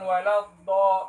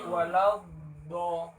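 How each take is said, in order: First: The consonant sound is cut off abruptly. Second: The consonant sound is prolonged. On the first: The speaker calls it wrong. "Bukan walau do, bukan begitu" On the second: The speaker calls it right. "Tetapi walau do"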